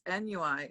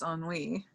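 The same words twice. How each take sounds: First: The word is sounded out as it is spelled. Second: The word is said in its usual established way.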